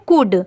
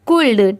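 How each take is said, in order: First: The L sound is silent before the D. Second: The L sound is pronounced before the D. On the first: The speaker calls it right. "यहाँ पर भी एल letter silent है" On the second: The speaker calls it wrong. "अगर हम उसे pronounce करें C O U L D तो इसे हम प्रोनाउंस करेंगे"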